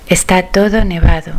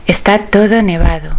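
No difference in how they are said.

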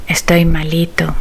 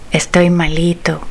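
Both takes have the same delivery.

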